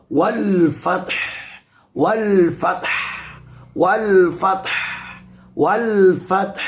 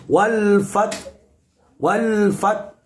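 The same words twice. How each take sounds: First: "wal fath" with the final "th" clearly sounded; "wal fath" ending voiced clearly and fully; correct pronunciation. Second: "wal fath" said with the final "th" dropped; "wal fath" ending clipped off, last letter lost; wrong pronunciation. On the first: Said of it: "haknya ditampakkan atau dijelaskan". ("wal fath" dengan huruf akhir dibaca jelas) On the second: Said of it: "Nah, ini tidak boleh". ("wal fath" dibaca dengan huruf akhir tidak ditampakkan) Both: Shown as a demonstration.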